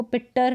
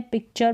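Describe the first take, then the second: First: पिक्टर with a hard T, "pik-tar"; wrong T pronunciation. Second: पिक्चर as "pik-char"; T read as CH. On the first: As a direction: misread picture as पिक्टर. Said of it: "नहीं पढ़ते हैं". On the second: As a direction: correct it to पिक्चर with a "ch". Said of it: "टी का उच्चारण च हो गया". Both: Shown as a demonstration.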